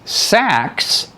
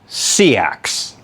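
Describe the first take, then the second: First: It is one syllable, like sack. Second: It is two syllables, see plus axe. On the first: This is one region's pronunciation. "like a sack of potatoes" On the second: This is another region's pronunciation. "like C and then an axe"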